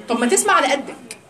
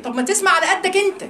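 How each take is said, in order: First: Said in the usual way. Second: Higher, with أنت hit hard at the end; emphatic retort. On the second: Shown as a demonstration. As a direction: push the final أنت like a scolding jab.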